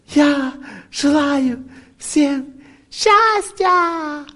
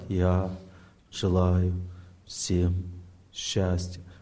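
First: It is said with strong emotion. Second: It is said quietly, without strong emotion.

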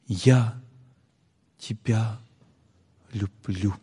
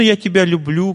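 First: It is said warmly and sincerely. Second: It is said casually and offhandedly. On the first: The feeling comes from the heart. The speaker calls it right. "искренне повторяет" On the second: The words are said superficially, without real feeling. The speaker calls it wrong. "Этот звук идет от ума"

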